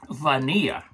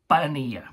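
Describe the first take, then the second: First: The word starts with a clear V sound. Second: The word starts with a sound close to B. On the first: This is how it sounds in French. "That's in French" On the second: This is how it sounds in Spanish. "Got that B accent to it"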